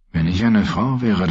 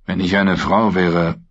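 First: Eine weighted, falling off; stress on eine. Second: Frau weighted, falling; stress on Frau. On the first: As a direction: lean on eine, sardonic. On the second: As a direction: lean on Frau this time. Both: A narrator's reading. Jaime repeats the phrase.

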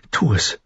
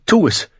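First: Restrained consent, slightly raised pitch; understated relief, no exclamation; relieved. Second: High, sudden urgent order; impulsive, high-pitched exclamation; blurted out. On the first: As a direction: give the go-ahead with relief. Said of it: "Dani bebte vor Erleichterung". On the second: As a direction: burst out with it. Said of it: "platzte Dani heraus". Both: A narrator's reading.

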